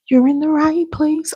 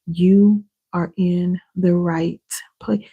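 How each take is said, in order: First: Much higher, sung-out reassurance; emphatic high repeat. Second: Said in the usual way. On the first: Real, not acted. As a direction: lift it up, say it again with feeling.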